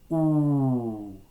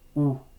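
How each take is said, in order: First: The vowel is held for longer. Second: The vowel is held briefly. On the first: "then a long version" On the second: "first a short"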